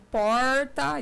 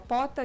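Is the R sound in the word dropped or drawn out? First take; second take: drawn out; dropped. First: The R sound is drawn out strongly. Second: The R sound is left out entirely. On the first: "eles puxavam mais o R" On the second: "senão ficava pota"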